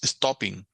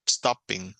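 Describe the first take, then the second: First: STOPPING with no break between syllables; syllables run together. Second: STOPPING with a tiny break before -PING; syllables set apart. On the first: Teacher showing students what to avoid, syllables run together. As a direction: run "stopping" together as one loose word. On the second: Teacher showing students the doubled consonant, syllables set apart. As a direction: say "stopping" as two firm syllables, stop-ping. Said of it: "hacer un poquito más de fuerza de voz". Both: Shown as a demonstration.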